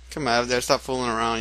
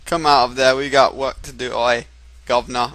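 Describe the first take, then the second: First: Said in the usual way. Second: Loud, hammed-up British accent; overdone "oi, governor" British accent; a stab at a British working man's accent; put-on British accent. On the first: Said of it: "like, not like that". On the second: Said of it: "in his accent".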